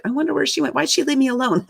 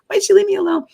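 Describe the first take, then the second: First: Said in the usual way. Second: Why'd she leave me alone said much higher, plaintive; a high, forlorn little wail of leave me alone; abandoned whine. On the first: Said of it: "And I was like". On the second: Retold or imitated. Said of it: "it's really what I was thinking".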